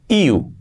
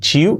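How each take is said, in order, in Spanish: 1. La palabra empieza con un sonido 'y'. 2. La palabra empieza con un sonido 'ch'. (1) "una I y una U para decir you" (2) "un error típico"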